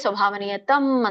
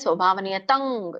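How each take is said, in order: First: The word ends with an 'm' nasal sound. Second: The word ends with an 'ng' nasal sound. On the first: This is the habitual everyday way of saying it. "ನಾವೇನ್ ಹೇಳ್ತೇವೆ? ... ಅಂತ ಹೇಳ್ತಾರೆ" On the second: This is the correct recitation method. "ಯಾಕೆ ಕುಂಗ್ ತಂಗ್ ಹೇಳ್ತಾ ಇದ್ದೇನೆ ನಾನು?"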